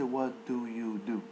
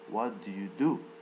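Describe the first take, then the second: First: The first do is pronounced fully and clearly. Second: The first do is reduced and barely heard. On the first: The speaker calls it wrong. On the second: The speaker calls it right.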